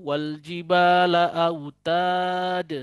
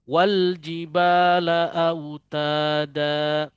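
First: The last word stops abruptly on the consonant. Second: The last word ends on a lengthened a vowel. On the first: The speaker calls it wrong. "atau wal jibala autad. Salah" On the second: The speaker calls it right. "harus diambil dengan cara baca mad iwad tadi, dua harokat"

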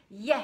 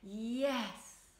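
First: It is said quickly and vigorously. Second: It is said slowly and gently.

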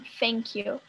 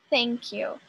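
First: The first sound is an f sound. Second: The first sound is a voiceless th sound. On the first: The speaker calls it wrong. "Não é um F, porque não é mouth, nem think, nem thank you" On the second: The speaker calls it right. "Essa é a pronúncia correta"

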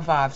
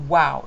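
First: The word begins with a v sound. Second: The word begins with a w sound. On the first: This is the modern Hebrew pronunciation. The speaker calls it wrong. "not a vav sound. That's modern Hebrew" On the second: This is the ancient Hebrew pronunciation. The speaker calls it right. "it's a wa sound"

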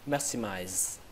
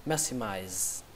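No difference in how they are said.

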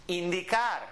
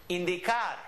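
No difference in how they are said.

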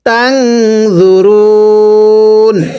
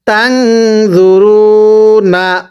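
First: The word ends without the final vowel. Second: The word ends with a final vowel sound. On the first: The reading stops at this word. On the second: The reading continues without stopping here.

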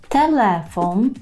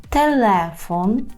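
No difference in how they are said.

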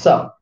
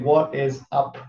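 First: It is clipped down to one syllable. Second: Every word is said in full.

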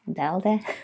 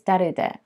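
First: The name is said with an English pronunciation. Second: The name is said with a Japanese pronunciation. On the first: "I don't know how we're supposed to pronounce it in not Japanese" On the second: "In Japanese, it's derude"

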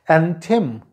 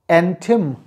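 The two takes are said the same way.

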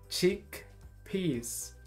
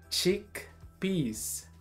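No difference in how they are said.

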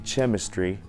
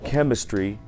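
First: The ch is pronounced as ch. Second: The ch is pronounced as k. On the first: The speaker calls it wrong. "а не" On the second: The speaker calls it right. "Как в слове"

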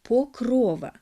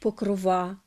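First: The stress is on the second syllable. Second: The stress is not on the second syllable. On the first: It is the standard form. The speaker calls it right. "Нормативний наголос у цьому слові на другому складі" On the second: It is the form heard on radio and TV. The speaker calls it wrong. "По радіо і на телебаченні кажуть"

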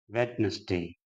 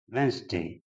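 First: The word is said with a 'd' sound in the middle. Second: The word is said without a 'd' sound in the middle. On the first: The speaker calls it wrong. "that also is pronounced Wednesday. That is incorrect" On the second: The speaker calls it right. "Next word is Wednesday"

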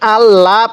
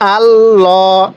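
First: The L is pronounced thin and light. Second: The L is pronounced thick and heavy. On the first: The speaker calls it wrong. "এই লামটা চিকন করে পড়ি না, এরকমভাবে পড়ব না।" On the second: The speaker calls it right. "লামটা মোটা করে পড়ব।"

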